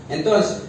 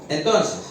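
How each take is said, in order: The two takes are said the same way.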